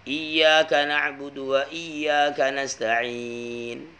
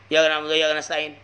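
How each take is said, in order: First: The y sound in the first iyyaka is doubled. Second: The y sound in the first iyyaka is single. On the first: The speaker calls it right. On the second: The speaker calls it wrong.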